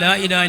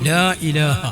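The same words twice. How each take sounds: First: The final h has no vowel after it. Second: The final h ends with a light 'a' vowel. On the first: The speaker calls it wrong. "അല്ലെങ്കിൽ ... എന്നായി പോകും. അതുകൊണ്ടും കലിമത്ത് ശരിയാവൂല" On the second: The speaker calls it right. "ആ ഹാക്ക് ചെറിയൊരു നേരിയ ഫത്ഹ് കൊടുത്തുകൊണ്ട്"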